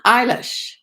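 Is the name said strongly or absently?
strongly. It is said strongly, calling for attention.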